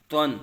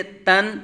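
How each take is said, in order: First: تن with a thick t and rounded vowel, like "twan"; full, heavy Twan. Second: تن with a light front t and open a; thin, light Tan. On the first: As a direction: fill the mouth on تن. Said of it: "پر پڑھا جائے گا". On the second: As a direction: keep تن thin and unrounded. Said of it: "یہ باریک اور یہ". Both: Shown as a demonstration.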